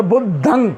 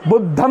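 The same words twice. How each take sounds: First: बुद्धं ending in a nasal ng; Pali nasal ending. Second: बुद्धम closing on a clear m sound; Sanskrit m ending. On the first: Teacher models the right Pali बुद्धं with ng. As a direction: say बुद्धं with a nasal ng close, not an m. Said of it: "बुद्धम नहीं आएगा". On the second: Teacher shows the wrong Sanskrit-style बुद्धम. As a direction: say बुद्धम with a hard final m, the Sanskrit way. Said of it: "बुद्धम आएगा तो संस्कृत हो जाएगी". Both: Shown as a demonstration.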